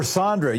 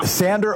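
First: Sandra with an open "ah" first vowel; Sandra with broad ah. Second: Sandra with the flat "a" of "sand"; Sandra with short a. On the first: Host checks caller's name, Sandra said SAHN-druh. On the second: Host checks caller's name, Sandra said SAN-druh. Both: Shown as a demonstration.

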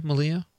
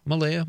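First: Malaya said /məliə/, middle like lee; trying the name. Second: Malaya said /məleɪə/, stress on lay; trying the name. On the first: Host tries caller's name, Malaya as ma-LEE-ah. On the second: Host tries caller's name, Malaya as may-LAY-ah. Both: Shown as a demonstration. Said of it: "how would you say that".

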